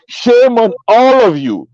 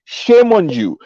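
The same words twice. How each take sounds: First: "all" slowed and leaned on in "Shame on all of you"; stressed rebuke. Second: Said in the usual way. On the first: Real, not acted. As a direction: drag out "Shame on all of you" slowly, hitting "all".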